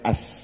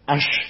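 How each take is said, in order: First: The word ends with a plain s sound. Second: The word ends with a sh sound. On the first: This is how the man who could not say it spoke. The speaker calls it wrong. "Isane as" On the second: This is the proper form he could not manage. The speaker calls it right. "ash nganggo shin ora iso"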